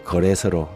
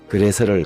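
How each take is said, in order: First: The first vowel is a mid 'eo' sound. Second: The first vowel is a high unrounded 'eu'.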